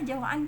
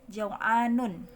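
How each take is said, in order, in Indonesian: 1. Kata ini berhenti begitu saja, tanpa vokal di akhir. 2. Kata ini berakhir dengan akhiran -un yang penuh. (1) "kita baca sukun aja" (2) "tulisannya jau'anun"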